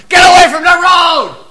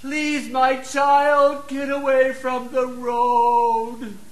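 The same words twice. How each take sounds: First: Much higher, louder yell; yelling at a child near the road; parent's shout. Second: Much softer, slow and higher pleading; soft, slow mock pleading with the child; too-soft plea. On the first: Retold or imitated. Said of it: "they yell out the window". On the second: Shown as a demonstration. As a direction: ask it gently, far too sweetly. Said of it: "Do you think they're gonna get their attention?".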